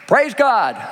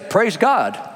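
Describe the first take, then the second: First: It is said with full, forceful energy. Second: It is said with somewhat more energy.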